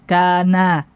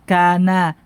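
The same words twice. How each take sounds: The two takes are said the same way.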